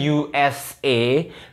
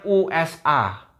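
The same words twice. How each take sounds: First: The letters are pronounced the English way. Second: The letters are pronounced the German way. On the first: "kalau Inggrisnya" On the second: "kalau di Jerman bacanya"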